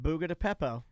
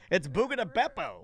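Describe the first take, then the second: First: The last word begins with a P sound. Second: The last word begins with a B sound. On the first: The speaker calls it wrong. "most people that I know call it" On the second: The speaker calls it right. "It's Beppo"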